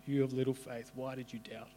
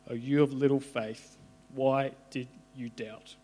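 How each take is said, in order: First: Softer, hushed and tender second take; soft tender echo. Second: A touch of gentle rebuke, slowing on the question; lightly voiced Jesus, kindly chiding. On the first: Acted. Jesus to Peter, softly repeated tender rebuke. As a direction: let it fall away to almost nothing. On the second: Jesus to Peter, lightly voiced kindly chiding.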